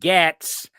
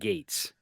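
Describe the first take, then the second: First: The vowel sounds like the one in 'hats'. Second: The vowel sounds like the one in 'gates'. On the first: This form is used on purpose to annoy the name's owner. "I'm intentionally saying his name the way he doesn't want me to say it" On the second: This is the form the name's owner wants. "his name is not Gates"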